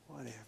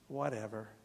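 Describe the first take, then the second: First: It is said very quietly. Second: It is said at normal loudness.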